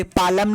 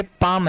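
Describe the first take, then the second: First: "पालम" said as pa-lam, two syllables; wrongly sounded L. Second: "पाम" said as paam, one syllable; correct silent L. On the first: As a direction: voice the silent L in "पालम". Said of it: "नहीं है". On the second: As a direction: leave out the L in "पाम". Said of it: "ये पालम नहीं है". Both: Shown as a demonstration.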